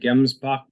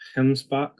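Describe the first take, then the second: First: It begins with a plain hard G sound. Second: It begins with a coughing, throaty H sound. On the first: "it looks like gemsbok" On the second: "they pronounce it with kind of a coughing H sound"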